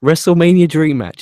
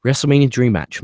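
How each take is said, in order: First: Louder, higher hype announcer call. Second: Said in the usual way. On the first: Pretend. Host hyping a fan's dream match, announcer style. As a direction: sell it like a ring announcer.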